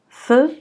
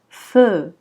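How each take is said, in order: First: The vowel is short and not drawn out. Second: The vowel is long and drawn out. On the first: The speaker calls it wrong. "On ne dira pas feu, non c'est faux" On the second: The speaker calls it right. "C'est un long E"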